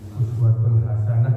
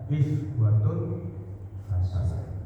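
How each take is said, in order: First: The first word begins with a 'u' vowel. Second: The first word begins with an 'i' vowel.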